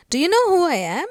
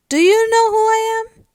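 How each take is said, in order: First: Loud indignant demand, pitched high; furious. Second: Very high, loud, alarmed question; concerned. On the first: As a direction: demand it like an outraged little girl. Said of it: "So looking furious". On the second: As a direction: blurt it out as a worried schoolboy, voice shooting up. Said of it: "Looking concerned". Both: Acted.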